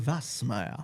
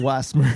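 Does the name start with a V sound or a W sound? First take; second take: V; W. First: The name begins with a V sound. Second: The name begins with a W sound. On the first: This is how the family pronounces it. "le W devient un V" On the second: This is how everyone else says it. "tout le monde t'appelle Wasmer"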